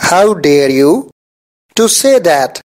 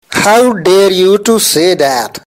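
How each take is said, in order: First: How dare you, pause, to say that; two pieces with a clear break; chunked with pauses. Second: Said in the usual way. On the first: Shown as a demonstration. Teacher repeating to learners in two chunks. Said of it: "teacher repeats it in chunks". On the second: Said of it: "teacher models the sentence".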